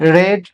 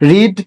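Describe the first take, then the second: First: The vowel is short, as in 'red'. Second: The vowel is long, as in 'reed'. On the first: "উচ্চারণটা হয় রিডের জায়গায় রেড" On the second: "রিডের জায়গায়"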